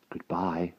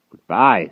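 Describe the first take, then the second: First: Soft hushed "Goodbye"; boy whispering farewell to his master; whispered goodbye. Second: Loud, firm "Goodbye" falling; louder goodbye. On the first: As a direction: breathe "Goodbye" in quiet despair. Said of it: "whispered the wart". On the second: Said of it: "said Merlin". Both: A narrator's reading.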